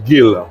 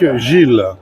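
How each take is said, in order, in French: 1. Le nom se prononce à l'écossaise. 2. Le nom se prononce à la française.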